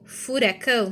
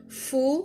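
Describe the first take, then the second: First: Said in the usual way. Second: "furacão" as fu - ra - cão with pauses; split into syllables. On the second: Shown as a demonstration. Teacher demonstrates three-syllable split.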